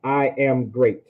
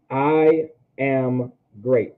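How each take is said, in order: First: Said in the usual way. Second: "I ... am ... great", very slow with gaps between words; slow, separated teaching delivery of "I am great". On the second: Shown as a demonstration. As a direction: spell out "I am great" one slow word at a time. Repeats translation word by word.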